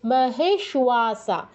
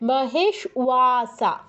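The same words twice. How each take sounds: No difference in how they are said.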